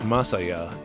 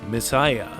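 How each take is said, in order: First: It is said in three syllables, like ma-sa-ya. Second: It is said like the English word messiah. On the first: The speaker calls it wrong. "the brand name isn't pronounced Masaya" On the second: The speaker calls it right. "it's Messiah"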